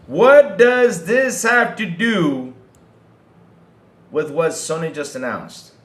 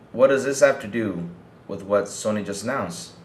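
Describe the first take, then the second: First: Loud, high, drawn-out question, easing at the end; exasperated demand. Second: Said in the usual way. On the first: Real, not acted. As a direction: hammer "What does this have to do" slowly and loudly, then drop back. Repeats question emphatically in exasperation.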